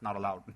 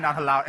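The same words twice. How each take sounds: First: Said in the usual way. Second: "not allowed" fired out much louder, a mock-strict rule. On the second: Shown as a demonstration. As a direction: bark "not allowed" like a joking strict teacher. Teacher repeats rule, louder.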